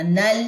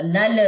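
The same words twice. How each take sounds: First: نل with a smooth, still lam; correct plain lam. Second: نل with a jolt on the lam; wrong qalqala on lam. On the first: Teacher giving the correct نل, lam smooth. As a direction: glide through نل without a bounce. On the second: Teacher showing wrong نل with a bounced lam. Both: Shown as a demonstration. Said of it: "نل ایسے نہیں پڑھنا".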